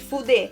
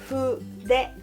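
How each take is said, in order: First: The f is made with the teeth on the lip. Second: The f is a soft blow with the lips only. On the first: The speaker calls it wrong. "Escreve F, literalmente fuder" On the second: The speaker calls it right. "mas se pronuncia fuder"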